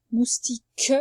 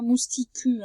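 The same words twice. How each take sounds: First: Said in the usual way. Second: Mousticu read with the U sounded as u; mousticu, the wrong way with a spoken U at the end. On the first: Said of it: "ça fait pas mousticu". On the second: Shown as a demonstration. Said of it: "mais ça fait pas". (mousticu, avec le U prononcé, la mauvaise lecture)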